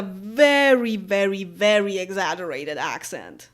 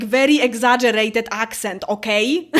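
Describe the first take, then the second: First: Said in the usual way. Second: Very thick, hammed-up Polish accent; put-on heavy Polish-accented English, emphatic; exaggerated Polish accent. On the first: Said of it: "or I can speak with a very". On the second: Shown as a demonstration.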